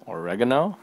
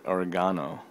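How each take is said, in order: First: Oregano as or-REG-uh-no, rising; questioning pronunciation. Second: Oregano said as or-uh-GAH-no; stress on GAH. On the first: Card reviewer double-checking the name oregano, questioning or-REG-uh-no. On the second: Card reviewer trying the name oregano, stress on GAH. Tries two pronunciations of oregano. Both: Real, not acted.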